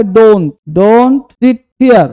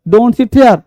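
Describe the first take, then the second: First: Very slow, word by word, stress on sit; slow dictation. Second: Said in the usual way. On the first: Shown as a demonstration. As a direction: spell out "Don't, don't sit here" slowly for the class. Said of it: "teacher dictating slowly". (बहुत धीरे, "sit" पर ज़ोर) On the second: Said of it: "teacher repeats at normal pace".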